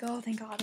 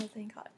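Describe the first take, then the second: First: Said in the usual way. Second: A much softer, whispered oh, thank God; relieved whisper. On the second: Retold or imitated. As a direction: breathe it out in relief. Relief when he recovers.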